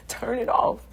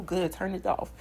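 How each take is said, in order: First: Emphatic command. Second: Said in the usual way. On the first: Shown as a demonstration. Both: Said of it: "if it's irritating you".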